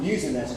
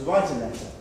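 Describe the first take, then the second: First: "use" said with a falling stress; the wrong verb. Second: "write" said with a falling stress; the corrected verb. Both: Shown as a demonstration.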